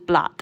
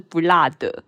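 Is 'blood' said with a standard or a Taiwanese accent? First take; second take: standard; Taiwanese. First: It is said with a standard English accent. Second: It is said slowly with a heavy Taiwanese accent. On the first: It is the plain English word for blood. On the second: It sounds like the Chinese for 'not spicy'.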